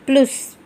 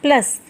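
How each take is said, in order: First: The vowel is a rounded 'oo'-like sound. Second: The vowel is a short open 'uh' sound. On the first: The speaker calls it wrong. "This is not plus" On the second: The speaker calls it right. "This is plus"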